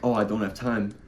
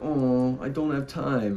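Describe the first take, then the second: First: It is said in a plain, serious voice. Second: It is said in a silly, whiny complaining voice.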